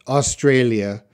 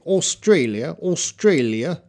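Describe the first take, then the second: First: Said in the usual way. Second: "Australia" the Australian way, rounded AW opening, rising end; Australian pronunciation. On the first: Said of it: "I pronounce it". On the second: Shown as a demonstration. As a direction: imitate Australians saying "Australia", tune lifting. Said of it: "the people from Australia say".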